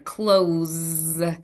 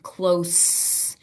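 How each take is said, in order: First: The word ends with a buzzing Z sound. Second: The word ends with a soft hissing S sound. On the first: To shut something, like a door. "you close the door is a Z sound" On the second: Near to someone or something. "A very soft S sound"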